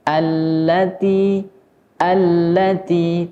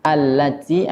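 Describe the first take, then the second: First: "allati" with an exaggerated breathy t; "allati" with too much air on the t; overdone reading. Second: "allati" with a firmer, held-back t; "allati" with the t pressed a little; slightly pressed "allati". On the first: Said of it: "tidak boleh berlebihan". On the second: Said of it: "lebih agak sedikit kuat". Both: Shown as a demonstration.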